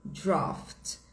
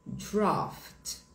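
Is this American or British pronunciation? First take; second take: British; British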